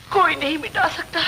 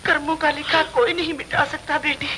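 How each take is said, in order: First: A touch of crying on the repeat; tearful repeat. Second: Said in the usual way. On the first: Acted. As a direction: voice catching with a sob. Mother repeats line, voice breaking.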